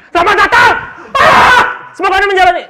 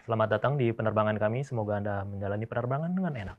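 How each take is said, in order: First: Much higher and louder, yelling the welcome; shouted pilot welcome. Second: Smooth, even cabin welcome; calm pilot announcement. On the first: Pilot showing how bad intonation sounds, shouting. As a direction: blast the greeting like a panicked pilot. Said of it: "coba kalau gini". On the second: Pilot welcoming passengers, calm and smooth. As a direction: ease the passengers in gently. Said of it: "pilot kan pasti dia akan ngomong". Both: Shown as a demonstration.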